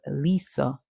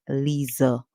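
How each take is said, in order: First: The middle consonant is a hissing s sound. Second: The middle consonant is a buzzing z sound. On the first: "the name is most common as Lisa in English" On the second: "this name can be pronounced as Lisa. And that's because the is in the word is treated as is"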